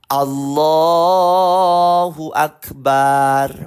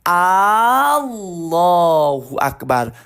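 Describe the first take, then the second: First: The 'ba' syllable vowel is drawn out long. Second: The opening A vowel is drawn out long. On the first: It names a drum. "Ada juga yang baca panjang baknya" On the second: It asks whether God is great. "saya panjangkan A-nya sedikit"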